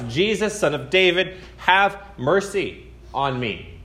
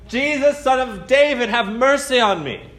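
First: It is said at a softer volume. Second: It is said at a louder volume.

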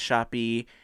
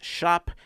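First: It is said as two syllables, like shoppy. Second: It is said as one syllable, like shop. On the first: The speaker calls it wrong. "not pronounced shoppy" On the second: The speaker calls it right. "so I'm going to pronounce it properly"

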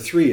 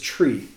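First: The word begins with a th sound. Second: The word begins with a t sound. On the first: "the number three" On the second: "some people say the number three is tree"

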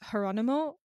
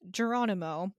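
First: The name begins without a J sound. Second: The name begins with a J sound. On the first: The speaker calls it right. "It's Geronimo" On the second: The speaker calls it wrong. "it's not a J sound, but I'm going to say it anyway"

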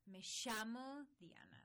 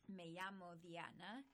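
First: The 'll' in llamo is said with 'sh'. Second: The 'll' in llamo has no 'sh' sound. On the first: "in Argentina it's very Me llamo Diana. Like they have this shh" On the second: "is sort of pretty straightforward in Spanish"

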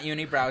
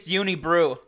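First: The last syllable rhymes with 'cow'. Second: The last syllable rhymes with 'true'. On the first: The speaker calls it wrong. "not Unibrow" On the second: The speaker calls it right. "it's Unibrew"

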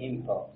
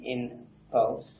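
First: The nasal before p is an m sound. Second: The nasal before p is an n sound. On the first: "you say impulse" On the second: "Instead of saying impulse"

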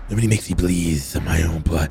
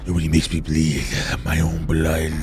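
First: The line is spoken with a lisp. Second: The line is spoken without a lisp.

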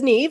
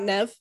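First: The name is said as 'Neve'. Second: The name is said as 'Nev'. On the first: The speaker calls it right. "So it is Neve" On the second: The speaker calls it wrong. "It's not Nev"

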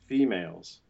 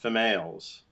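First: The first vowel is a long closed e. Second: The first vowel is a short open i. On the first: The speaker calls it right. "It's stressed, and so it's the long closed E" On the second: The speaker calls it wrong. "it's not females"

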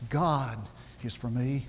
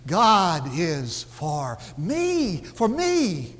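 First: The word 'God' is stressed. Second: The word 'me' is stressed. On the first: It is God, and no one else, who is for me. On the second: God is on the side of me personally.

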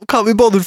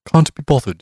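First: A rough, casual British accent is used. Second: A posh, upper-class British accent is used. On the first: The speaker calls it wrong. "I'll do it in a British accent" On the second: The speaker calls it right. "That's the one"

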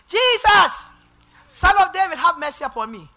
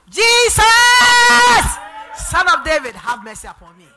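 First: It is said at a normal volume. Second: It is shouted loudly.

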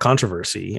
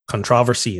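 First: The word is said in an American way. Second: The word is said in a Barbadian way. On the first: "I gotta speak American" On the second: "I say controversy"

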